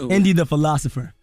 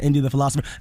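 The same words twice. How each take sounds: First: The name is said slowly. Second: The name is said quickly. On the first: The speaker calls it right. "slow that down" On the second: The speaker calls it wrong. "Don't say that fast"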